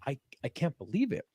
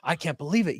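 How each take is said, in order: First: It sounds shocked and upset. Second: It sounds gleeful and celebratory. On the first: They are upset about the news. "They're like" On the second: They are happy about the news. "not saying that in a good way, like"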